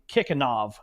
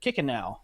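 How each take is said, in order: First: The name ends with a v sound. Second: The name ends with a vowel sound. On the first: Someone else says it this way. "David Bray was saying Kikanov" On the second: The speaker usually says it this way. "I have always said Kikanow"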